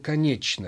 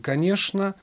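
First: The middle consonant sounds like ch. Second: The middle consonant sounds like sh. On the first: This is the Petersburg pronunciation, following the spelling. "петербуржец говорил «конечно». Ведь написана-то буква «ч»" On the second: This is the Moscow pronunciation. "москвич говорил «конечно»"

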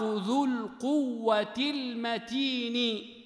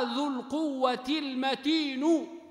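First: The last word ends with an i vowel. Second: The last word ends with a u vowel. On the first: The word describes the strength. "ذو القوة مكسورة فانكسرت" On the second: The word describes God as a second predicate. "والأشهر أن يقال ... لأنها كذلك خبر"

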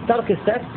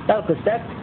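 No difference in how they are said.

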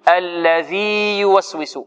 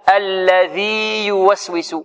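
The two takes are said the same way.

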